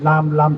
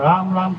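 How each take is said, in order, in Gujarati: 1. આ શબ્દ L અવાજથી શરૂ થાય છે. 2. આ શબ્દ R અવાજથી શરૂ થાય છે. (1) "દાંત ના હોય તો પછી ર નો લ બને" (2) "દાંત હોય ત્યાં સુધી ર નું ઉચ્ચારણ થાય"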